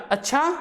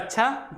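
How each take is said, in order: First: It is said as a question. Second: It is said as a calm, accepting agreement. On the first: The speaker is asking whether something is so. "Question mark" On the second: The speaker agrees and is leaving. "ये स्वीकृति प्रदान करने के लिए"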